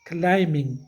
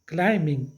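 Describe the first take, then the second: No difference in how they are said.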